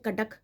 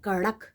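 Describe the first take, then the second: First: The middle consonant is a plain stop. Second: The middle consonant is a quick tongue flap. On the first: The speaker calls it wrong. "हम कटक तो नहीं बोलते" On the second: The speaker calls it right. "लेकिन हम बोलते हैं कड़क"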